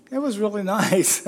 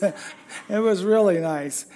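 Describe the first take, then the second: First: Laughing through the words. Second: Slow, sincere, leaning on "really"; mean it this time, slowly. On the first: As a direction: breaks into a laugh on "really". Corrects the joke, laughing. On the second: Sincere restatement after joke. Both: Real, not acted.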